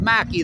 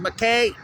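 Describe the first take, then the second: First: The name ends with a 'key' sound. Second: The name ends with a 'kay' sound. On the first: The speaker calls it right. "they pronounce it Mackey" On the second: The speaker calls it wrong. "the name of the company is McKay"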